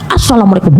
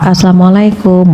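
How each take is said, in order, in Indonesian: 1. Diucapkan dengan kasar dan nada marah. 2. Diucapkan dengan lembut dan nada rendah. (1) "Masa doa dimarah-marahin?" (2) "Beda Bu kalau dengan nada rendah"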